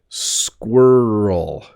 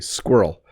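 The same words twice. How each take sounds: First: The word is said slowly and carefully. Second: The word is said quickly and crunched together. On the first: "if I say it slowly" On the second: "if I say it quickly"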